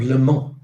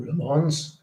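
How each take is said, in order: First: "Le Mans" said the French way, silent s, nasal end. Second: "Le Mans" said the English way, lə manz with the s sounded; host offers the anglicised "Le Mans" as an option. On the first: Quiz host naming the race for viewers, French "Le Mans" with no s. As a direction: quiz host gives the French "Le Mans" first, lee mah. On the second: Quiz host giving viewers the alternative, "Le Mans" with a sounded s. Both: Shown as a demonstration. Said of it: "if you want to read it that way".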